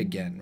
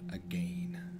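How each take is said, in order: First: It is said in a plain American accent. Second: It is said with an almost British vowel. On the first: "I say again, right?" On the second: "And it's almost British"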